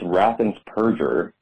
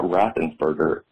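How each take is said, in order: First: The ending sounds like 'purger' with a P. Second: The ending sounds like 'burger' with a B. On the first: The speaker calls it right. "he purges the voting rolls" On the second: The speaker calls it wrong. "His name is not Raffensperger. It doesn't have a B"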